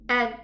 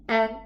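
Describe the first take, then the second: First: The n is cut short with the nose blocked. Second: The n is cut short with the nose blocked.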